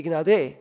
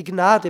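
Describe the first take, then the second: First: "Gnade" with loud, long final "-de"; wrong-syllable stress. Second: "Gnade" stressed on "Gna-"; natural stress. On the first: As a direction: hit the last syllable of "Gnade". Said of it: "und nicht die Gnade". („Gnade“ auf der Endsilbe betont) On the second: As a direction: put the weight on the first syllable of "Gnade". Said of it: "Ich hätte die Gnade betont". („Gnade“ auf der ersten Silbe betont) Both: Shown as a demonstration.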